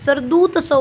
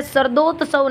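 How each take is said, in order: First: शरदूत्सव with u in the middle; correct form. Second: शरदोत्सव with o in the middle; wrong form. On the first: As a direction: say शरदूत्सव as sharad-OOT-sav. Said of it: "शरदूत्सव होता है". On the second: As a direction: say शरदोत्सव as sharad-OT-sav. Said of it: "शरदोत्सव नहीं होता है". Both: Shown as a demonstration.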